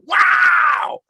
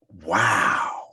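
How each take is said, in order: First: It is shouted loudly. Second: It is emphasized but not shouted.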